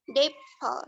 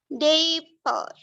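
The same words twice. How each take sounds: First: The first vowel is said short. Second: The first vowel is drawn out long. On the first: The speaker calls it right. "benar dapple seperti itu" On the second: The speaker calls it wrong. "Kalau panjang kayak gini salah"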